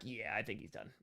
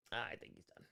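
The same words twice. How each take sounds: First: Said in the usual way. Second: Whispered, unvoiced "I think he's done". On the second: Real, not acted. Streamer whispering a quiet aside about a retired player. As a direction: breathe it out as an aside. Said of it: "repeat whispered".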